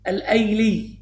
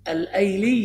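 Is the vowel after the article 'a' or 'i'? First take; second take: a; a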